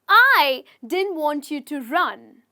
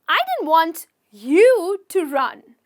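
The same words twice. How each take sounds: First: The stress is on the word I. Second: The stress is on the word you.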